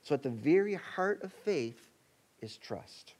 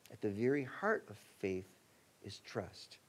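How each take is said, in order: First: A hushed, weighted trust; stress on trust. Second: Heart of faith said low, trust dropped very soft; repeated with weight. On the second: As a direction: land trust quietly, even lower. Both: Shown as a demonstration. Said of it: "Let me say that again".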